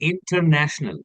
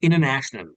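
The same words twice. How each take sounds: First: The T after N is clearly pronounced. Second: The T after N is dropped. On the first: "like we say" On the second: "it becomes international"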